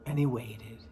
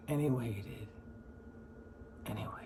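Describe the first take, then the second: First: Said in the usual way. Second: Dropping much lower and softer into near silence; trailing off. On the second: Shown as a demonstration. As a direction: let the words fade away as time drags. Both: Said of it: "So he waited for the giant".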